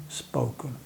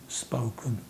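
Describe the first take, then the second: No difference in how they are said.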